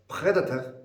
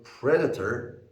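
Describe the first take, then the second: First: "predator" higher, with a French throaty R; French accent. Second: Said in the usual way. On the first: Shown as a demonstration. Teacher imitating tourists from France, French-accented "predator". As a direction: say "predator" as a French speaker would. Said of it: "if they say the word predator as". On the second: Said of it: "if they say the word predator".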